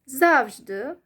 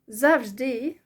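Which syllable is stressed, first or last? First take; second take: first; last. First: The stress is on the first syllable. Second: The stress is on the last syllable. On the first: "If I put stress on the first syllable" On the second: "with the stress on the E"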